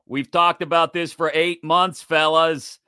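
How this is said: It is said in an imitated put-on voice.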